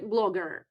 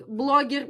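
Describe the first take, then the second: First: Said in the usual way. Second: "blogger" said as the Russian loanword; "blogger" with a Russian accent; Russian pronunciation. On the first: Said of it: "like, blogger, blogger". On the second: Shown as a demonstration. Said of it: "So the first one was".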